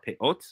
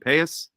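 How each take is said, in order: First: It is said with the Hebrew pronunciation. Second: It is said with the Yiddish pronunciation.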